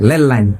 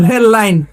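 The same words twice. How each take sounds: First: "লেল line" with L in place of R, lower; mock Raipura "লেল line", opening on L; R becomes L. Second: Said in the usual way. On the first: Shown as a demonstration. Preacher answers the crowd as Raipura locals, "লেল line" with L for R. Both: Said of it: "রেল line না বলে কি বলে?".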